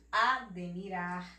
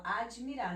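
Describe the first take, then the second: First: Admirar said as "a-de-mirar"; name the bare D inside admirar, "a-de-mi-rar"; "admirar" spelling-style, de in place of dji; as written. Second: Admirar said as "a-dji-mirar"; everyday "admirar" with a dji syllable; spoken form. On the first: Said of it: "é escrito admirar". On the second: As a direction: slip an "i" sound after the d in admirar. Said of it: "A gente fala admirar". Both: Shown as a demonstration.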